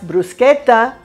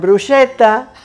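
First: The ch is said as a hard k sound. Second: The ch is said as a soft sound. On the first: The speaker calls it right. "That's bruschetta, because the CH in Italian is pronounced like that" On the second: The speaker calls it wrong. "not bruschetta"

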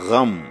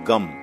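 First: It starts with a guttural gh sound. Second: It starts with a plain g sound. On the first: The speaker calls it right. "We say gham" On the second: The speaker calls it wrong. "not gum"

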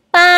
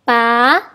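First: It is said with the first tone. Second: It is said with the second tone. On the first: "Nada pertama" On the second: "Nada kedua"

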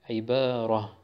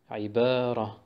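First: The word ends with a soft h sound. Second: The same.

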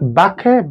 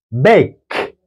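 First: An extra vowel is sounded after the K. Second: The word ends cleanly on the K sound. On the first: The speaker calls it wrong. "not bake" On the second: The speaker calls it right. "but bake"

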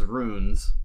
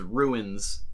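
First: The word is said as one syllable. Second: The word is said with two syllables.

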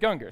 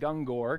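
First: The final syllable has a weak 'er' vowel. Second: The final syllable has a full 'or' vowel. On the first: The speaker calls it right. "it's Gunger, so I'm saying it right now" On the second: The speaker calls it wrong. "I always called it Gungor because that's how it looks, but it's not"

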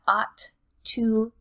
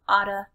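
First: Both words are said clearly in full. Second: The words blend into a reduced 'oughta'.

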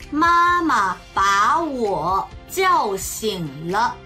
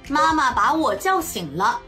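First: It is spoken slowly. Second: It is spoken at a normal pace. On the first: "ゆっくり中国語1 回、" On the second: "中国語1 回、"

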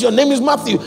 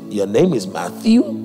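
First: The voice falls at the end like a statement. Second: The voice rises at the end like a question. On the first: The name is being declared as fact. The speaker calls it right. "where God has put a period" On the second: The name is being doubted. The speaker calls it wrong. "putting a question mark"

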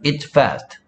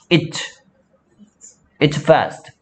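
First: The s sound of "it's" is dropped. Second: Both the t and s sounds are said. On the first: The speaker calls it wrong. "it fast도 아니고" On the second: The speaker calls it right. "정확하게 발음하는 게 좋겠죠?"

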